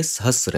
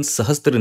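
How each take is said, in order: First: सहस्र said sa-ha-sra, with no t before r; the right way: सहस्र, s straight into r; correct reading. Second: सहस्त्र read wrongly with an added t, as sa-has-tra; the mistaken reading सहस्त्र, with an extra t before r. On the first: Teacher gives students the correct reading, सहस्र without a t. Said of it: "लेकिन सहस्त्र नहीं है". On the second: Teacher shows students the common wrong reading, सहस्त्र with a t. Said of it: "कई लोगों को ये सहस्त्र पढ़ने में लगता है". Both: Shown as a demonstration.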